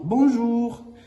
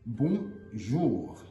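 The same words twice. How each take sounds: First: It is said quickly as one smooth word. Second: It is said slowly, syllable by syllable.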